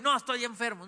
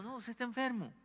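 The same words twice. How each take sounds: First: Mock stubborn denial. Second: Soft plain correction. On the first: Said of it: "Está enfermo", y". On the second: Shown as a demonstration.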